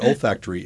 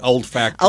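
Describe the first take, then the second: First: It sounds like olfactory, with no d. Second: It sounds like old factory, with a d. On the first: "But olfactory" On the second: "in Oklahoma, they might pronounce it old factory"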